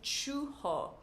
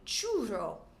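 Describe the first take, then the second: First: It is said with a Brazilian Portuguese pronunciation. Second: It is said with a Spanish pronunciation. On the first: "If I was speaking Portuguese, I would say churro" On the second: "if I was speaking Spanish, I would call it a churro"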